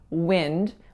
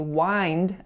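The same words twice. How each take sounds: First: The vowel in the word is lax. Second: The vowel in the word is tense. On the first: The speaker calls it right. "We should say wind with that lax I sound" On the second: The speaker calls it wrong. "we don't say wind, as I said when I was reading it earlier"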